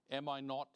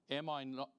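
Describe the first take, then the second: No difference in how they are said.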